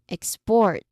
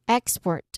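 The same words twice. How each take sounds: First: The stress is on the second syllable. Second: The stress is on the first syllable. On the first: It is the verb: the act of shipping out. "Second syllable is a verb" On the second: It is the noun: a thing shipped out. "First syllable again is a noun"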